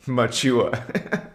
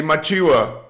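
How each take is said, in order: First: Machiwa. stretched slow with a rising end; slow demo. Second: Machiwa, said brightly as a greeting word; demo greeting. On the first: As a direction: draw Machiwa out gently, lifting at the end. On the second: Streamer shows chat how to say the greeting, brightly. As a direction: offer Machiwa like a friendly hello. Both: Shown as a demonstration. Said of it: "Or you can say".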